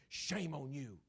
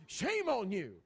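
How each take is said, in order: First: Said in the usual way. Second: "Shame on you" scolded high and loud, stress on "Shame"; a mother scolding her kid, much higher and louder; scolding mom. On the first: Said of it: "your mom ... say". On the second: Retold or imitated. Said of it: "your mom ever look at you".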